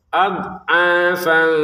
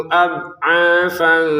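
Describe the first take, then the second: Both takes have the same delivery.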